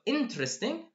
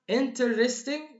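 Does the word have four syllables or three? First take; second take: three; four. First: The word is said with three syllables. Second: The word is said with four syllables. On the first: The speaker calls it right. "four syllables goes down to three syllables" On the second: The speaker calls it wrong. "It's not quite good"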